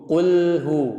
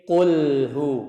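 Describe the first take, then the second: No difference in how they are said.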